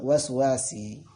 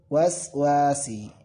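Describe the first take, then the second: First: The vowel after the second w is short. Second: The vowel after the second w is long. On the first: The speaker calls it wrong. "bukan waswasi" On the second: The speaker calls it right. "tapi waswasi"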